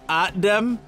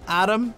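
First: It is said in a put-on Austrian-sounding accent. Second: It is said in an ordinary, unaccented way.

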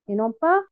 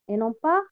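No difference in how they are said.

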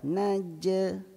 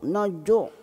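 First: The j release is light with spread lips. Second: The j release is heavy with rounded vowel. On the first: The speaker calls it right. "naja, senyum" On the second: The speaker calls it wrong. "jangan najuk, najuk. Salah"

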